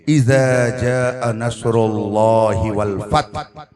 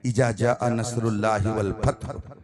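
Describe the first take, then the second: First: It is recited with careful, trained reciter articulation. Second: It is read in an ordinary, plain way. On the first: "वो अपने अंदाज में पढ़ेंगे" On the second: "पहले मैंने पढ़ा"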